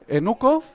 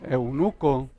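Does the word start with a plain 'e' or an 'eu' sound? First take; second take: e; eu. First: The word starts with a plain 'e' sound. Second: The word starts with an 'eu' sound. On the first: The speaker calls it wrong. "el hermano decía enuco" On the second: The speaker calls it right. "¿cómo se dice?"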